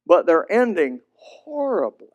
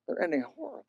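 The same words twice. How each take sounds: First: Said in the usual way. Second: "They're ending horribly" repeated much softer, pitch lifted; grieving soft echo of "They're ending horribly". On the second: Shown as a demonstration. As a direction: let "horribly" sink to a near hush.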